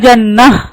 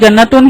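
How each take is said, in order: First: The word ends with a soft h sound. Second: The word ends with a full -tun syllable. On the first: The reader stops at this word. "रोकना चाह रही ... जन्नतुन की जगह जन्नह ऐसा होगा" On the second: The reading continues on without stopping. "Continue पढ़ रहे हम जन्नतुन तो जन्नतुन ही पढ़ेंगे"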